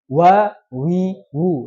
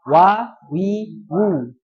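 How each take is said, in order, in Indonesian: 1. Suku katanya diucapkan tebal dan berat. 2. Suku katanya diucapkan tipis dan ringan. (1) "Itu tebel" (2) "Harusnya apa?"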